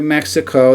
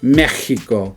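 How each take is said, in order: First: It is said with the English pronunciation. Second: The middle consonant is said as an H sound. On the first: This is the English way to say it. "That's how you say it in English" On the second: This is the Spanish way to say it. "they put an H sound right there on Mexico"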